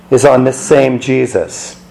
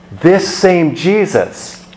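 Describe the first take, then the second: First: Said in the usual way. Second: This same Jesus slow, each word pressed; stress on same Jesus. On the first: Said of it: "The emphasis, rather". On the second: Shown as a demonstration. Preacher driving home This same Jesus with slow stress. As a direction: lean hard on same Jesus. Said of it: "So the emphasis, again".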